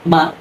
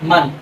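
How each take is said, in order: First: The word ends with a long a vowel. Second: The word ends with an n sound. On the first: The reader stops at this word. "এক জবর বাদ দিলে উচ্চারণ হয় মা" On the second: The reader continues without stopping here. "মিমে দুই জবর মান"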